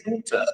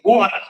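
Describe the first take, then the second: First: "water" in an English accent. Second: "water" with an American pronunciation; American accent. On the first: Host demonstrating her own word for farmers' issue, English accent. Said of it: "doesn't sound quite right". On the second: Host correcting her English word for Californians, American accent. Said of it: "You gotta say water". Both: Shown as a demonstration.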